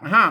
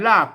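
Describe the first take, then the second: First: The word begins with an h sound. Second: The word begins with an r sound. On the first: This is the Northern Thai reading. "ถ้าเมืองออกเสียงฮอนะ" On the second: This is the Central Thai reading. "ถ้าไทยออกรากนะ"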